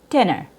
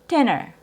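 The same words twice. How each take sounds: Both takes have the same delivery.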